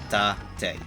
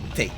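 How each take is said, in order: First: It is said as Japanese syllables ta-te. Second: It is read like an English word. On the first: The speaker calls it right. "because it's a Japanese word. Tate" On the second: The speaker calls it wrong. "they keep pronouncing it as Tate. That's not how you pronounce it"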